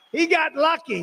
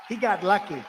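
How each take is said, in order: First: High, loud mocking emphasis on HE; emphatic repeat. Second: Said in the usual way. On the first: Real, not acted. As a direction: repeat it much higher and louder, punching HE.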